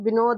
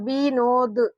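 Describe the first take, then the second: First: The first vowel is said short and quick. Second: The first vowel is held long. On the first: The speaker calls it right. "इसका उच्चारण बच्चों विनोद निकल रहा है। जल्दी भी हम लोग पढ़ रहे हैं" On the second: The speaker calls it wrong. "इसका उच्चारण विनोद, ये नहीं निकल रहा है"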